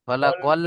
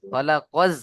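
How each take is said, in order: First: খালাকাল ending on an l sound; mistaken L ending. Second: খালাকাজ ending on a buzzing z; corrected Z ending. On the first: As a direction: end খালাকাল with l in place of z. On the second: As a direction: finish খালাকাজ on z, not l. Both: Shown as a demonstration. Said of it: "খালাকাল নয়".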